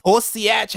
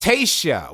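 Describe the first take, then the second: First: Tosiach said as toh-SEE-ach, a puzzled guess; sounding out Tosiach letter by letter as toh-see-ach; wrong guess at the name. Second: Taoiseach said as TAY-shuh, two syllables, falling; corrected pronunciation. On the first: Streamer guessing at the Irish leader's title, unsure. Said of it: "How the fuck do you pronounce this shit?". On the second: Streamer repeating the right pronunciation he just heard. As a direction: copy Taoiseach as TAY-shuh after hearing it. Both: Shown as a demonstration.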